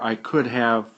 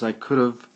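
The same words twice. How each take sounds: First: Could have is said fully, as two words. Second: Could have is run together into one reduced form. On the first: "The short for, form for I could have" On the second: "is I could have"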